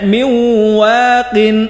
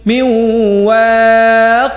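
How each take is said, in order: First: The last word ends with a full final syllable. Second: The last word stops short without the final syllable.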